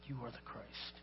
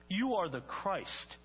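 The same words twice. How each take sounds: First: Very soft, low, reverent repeat; hushed declaration. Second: YOU drawn out and raised, slow proclamation; emphatic declaration. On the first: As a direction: let "You are the Christ" drop to a low hush. Peter's declaration repeated in a hush. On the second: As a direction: proclaim "You are the Christ" slowly, stressing YOU. Peter's declaration quoted twice, contrasted. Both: Acted.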